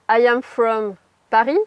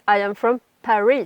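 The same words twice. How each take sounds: First: The R in Paris is a French throat R. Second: The R in Paris is an English R. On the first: The speaker calls it wrong. "ça va moins le faire" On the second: The speaker calls it right. "que si vous dites"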